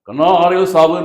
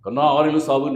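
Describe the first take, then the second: First: The line is delivered in a fierce, aggressive manner. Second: The line is delivered in a calm, even manner. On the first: "அவன் நெஞ்சு மேல ஏறி மிதிச்சு சொல்லியிருந்தாருன்னா" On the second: "வேலைக்காரன் படத்துல அந்த dialogue வரும்"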